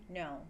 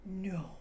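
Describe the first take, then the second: First: Short, lower "No"; mild mock anger, pitched down; angry. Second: Drawn-out disbelieving "No"; mock-astonished "No"; surprised. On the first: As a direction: demonstrate a restrained angry refusal. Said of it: "Or when we're angry". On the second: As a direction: demonstrate surprise with a long "No". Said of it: "If we're surprised". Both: Shown as a demonstration.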